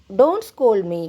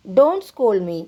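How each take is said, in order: First: Said in the usual way. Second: Don't scold me said slowly, word by word; slow teaching repeat. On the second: Shown as a demonstration. Teacher slowly repeating "Don't scold me" for Telugu students. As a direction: spell it out slowly for the learners. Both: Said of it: "నన్ను తిట్టకు అనాలంటే ఇంగ్లీష్లో".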